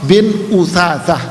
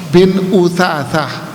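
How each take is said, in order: Both takes have the same delivery.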